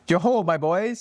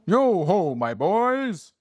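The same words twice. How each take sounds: First: It is read in a plain reading voice. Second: It is read in a jovial Fezziwig voice.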